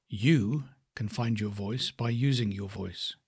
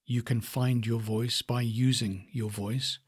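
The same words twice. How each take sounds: First: "You" punched, then a beat before the rest; stress on You. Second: Said in the usual way. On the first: Shown as a demonstration. Coach shows how stress moves between words, stressing "You". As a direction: lean on "You", let the rest run on slowly. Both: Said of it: "the stress then comes into the different words".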